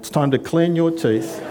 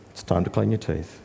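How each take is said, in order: First: It is said in a clearly raised voice. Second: It is said in a low, calm voice. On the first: The instruction is repeated again after being ignored. The speaker calls it wrong. "Raise your voice just a little bit more" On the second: The instruction is given calmly. The speaker calls it right. "loving, low, controlled voice"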